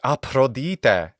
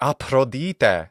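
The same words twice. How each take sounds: First: It is said in classical Attic Greek pronunciation. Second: It is said in classical Attic Greek pronunciation.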